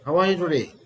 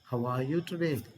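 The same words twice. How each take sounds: First: It is said in an angry tone. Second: It is said in a gentle, caring tone. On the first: The speaker is in a bad mood. "when we are angry, how do you say that?" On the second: The speaker cares about a sick friend. "when we go to hospitals to meet our friends who are hospitalized"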